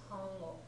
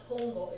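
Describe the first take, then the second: First: The first vowel sounds like 'ah'. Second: The first vowel sounds like 'oh'. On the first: The speaker calls it right. "it's 単語" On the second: The speaker calls it wrong. "not トンゴ"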